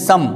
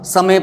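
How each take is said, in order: First: The final e is silent; one syllable only. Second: The final e is pronounced as an extra syllable. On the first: The speaker calls it right. "ई नहीं पढ़ा" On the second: The speaker calls it wrong. "समय पढ़ देते"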